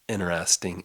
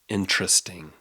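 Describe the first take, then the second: First: The T sound in the middle is dropped. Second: The T sound in the middle is pronounced. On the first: "we often leave our T's out" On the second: "She could hear the T"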